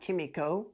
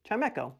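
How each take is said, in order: First: The middle syllable sounds like 'mee'. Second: The middle syllable sounds like 'meck'. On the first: The speaker calls it wrong. "Not Chimico" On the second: The speaker calls it right. "It's Chimecho"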